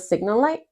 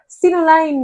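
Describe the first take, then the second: First: The last word ends with a t sound. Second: The last word ends with an n sound. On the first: The speaker calls it right. "It's a signal light" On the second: The speaker calls it wrong. "So they said Sinoline"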